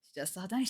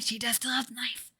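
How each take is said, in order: First: Said in the usual way. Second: Breathy unvoiced whisper; conspiratorial whisper to the viewers. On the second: Shown as a demonstration. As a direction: hush it like a secret aside. Repeats line, then whispers it.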